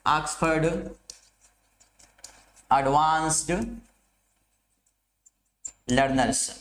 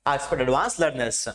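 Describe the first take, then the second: First: Oxford advanced learners spaced out word by word with long pauses; dictating a title to students; slow dictation. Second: Said in the usual way. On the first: Shown as a demonstration. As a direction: spell out the dictionary name slowly, one word at a time. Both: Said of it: "कौन सी dictionary?".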